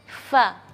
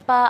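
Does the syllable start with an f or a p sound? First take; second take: f; p. First: It starts with airy friction, an f sound. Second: It starts with closed lips, a p sound. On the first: The speaker calls it right. "harus keluar angin" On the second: The speaker calls it wrong. "Pa atau va itu tidak boleh"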